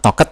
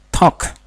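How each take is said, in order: First: The ending is read out as an extra syllable. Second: The ending is only a short t sound. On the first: The speaker calls it wrong. "jadi sebenarnya ini dibaca bukan talked" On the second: The speaker calls it right. "tapi talk"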